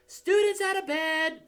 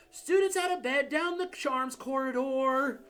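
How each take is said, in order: First: Much higher, louder bellow. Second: Bellowing. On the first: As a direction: raise the alarm at full voice. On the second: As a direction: shout it down the corridor. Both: Acted. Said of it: "Peeves bellowed".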